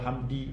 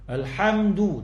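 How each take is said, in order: First: The word ends with an i vowel. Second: The word ends with an u vowel. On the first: The speaker calls it wrong. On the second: The speaker calls it right.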